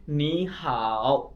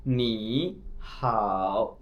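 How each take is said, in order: First: नी हाओ with नी in second tone rising, हाओ in third tone; correct tone sandhi. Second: नी हाओ with both syllables in third tone, slow and dipping; wrong tones. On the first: Teacher shows students the right way to say नी हाओ, fluent sandhi. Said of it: "जैसे मैं अब पढ़ रहा हूँ". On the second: Teacher shows students the wrong way to say नी हाओ, both dipping. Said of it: "मैं ऐसे नहीं पढ़ रहा". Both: Shown as a demonstration.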